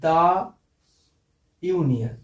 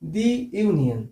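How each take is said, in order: First: 'The' is said with a short 'uh' vowel. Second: 'The' is said with a long 'ee' vowel. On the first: The speaker calls it wrong. "ভুল উচ্চারণ।" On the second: The speaker calls it right. "তাহলে এটা কি হবে?"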